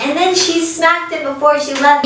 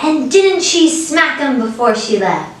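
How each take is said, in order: First: Said in the usual way. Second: "didn't she" pitched up, drawn out like a gossipy question; slow, high-pitched storytelling lilt on "didn't she"; Irish storyteller phrasing. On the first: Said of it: "Instead of, like". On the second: Shown as a demonstration. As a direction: tell it slowly and higher, as "And didn't she smack him". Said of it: "they would say, like".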